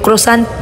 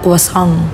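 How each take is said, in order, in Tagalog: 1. Binibigkas ito gamit ang matigas na tunog na pang-Filipino. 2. Binibigkas ito gamit ang malambot na tunog na pang-Pranses. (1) "sa atin, sa mga Pilipino" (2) "sa kanila croissant"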